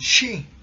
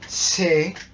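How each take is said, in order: First: The word starts with a hushing sh sound. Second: The word starts with a plain s sound. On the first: The speaker calls it right. "sino decimos she" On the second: The speaker calls it wrong. "Nosotros no decimos se"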